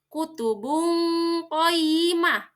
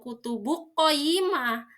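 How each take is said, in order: First: The n is hidden as a soft nasal hum. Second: The n merges fully into the following q. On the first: The speaker calls it right. "tanwinnya harus samar" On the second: The speaker calls it wrong.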